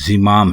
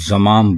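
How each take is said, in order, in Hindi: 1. पहला स्वर 'i' की आवाज़ है। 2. पहला स्वर 'a' की आवाज़ है। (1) "बल्कि ये ज़िमाम है" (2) "इसको अक्सर ज़माम बोला जाता है। तो ये ज़माम नहीं है"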